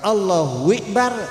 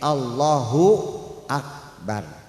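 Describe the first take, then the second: First: The last word begins with an 'i' vowel. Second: The last word begins with an 'a' vowel. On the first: The meaning changes to menstruation. The speaker calls it wrong. "Ikbar itu artinya head, menstruasi bahasa Arabnya" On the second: Allah is the greatest. The speaker calls it right. "hamzahnya akbar itu jangan sampai dibaca kasroh"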